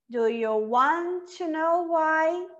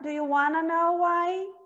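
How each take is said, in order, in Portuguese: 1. Want e to ficam separados, um T some. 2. Want e to se juntam numa palavra só, wanna. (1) "Esse T eu não vou pronunciar" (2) "Ou eu posso falar"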